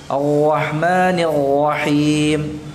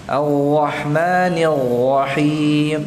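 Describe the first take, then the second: First: The r is gargled in the throat like ghain. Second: The r is gargled in the throat like ghain.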